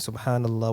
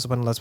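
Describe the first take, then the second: First: It is said slowly and deliberately. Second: It is rattled off quickly. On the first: The speaker reflects on the meaning. The speaker calls it right. "You ponder upon what you're saying" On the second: The words are repeated without thought. The speaker calls it wrong. "just finish it quick"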